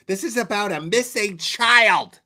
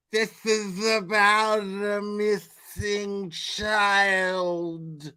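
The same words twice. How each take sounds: First: High, loud mocking voice; mocking impression. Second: Dragged-out slow-motion voice. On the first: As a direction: parrot her line with scorn. Mocking the streamer's line. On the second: Retold or imitated. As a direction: stretch every word way out. Same line replayed slowed.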